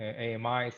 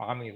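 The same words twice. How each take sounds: First: "A M Is" said letter by letter; spelled-out pronunciation. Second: "amis" said as one word, not spelled out; pronounced as a word. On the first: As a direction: say "A M Is" as separate letter names, A-M-I plus plural s. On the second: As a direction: run the letters together into the word "amis". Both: Shown as a demonstration. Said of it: "I forget how it's pronounced".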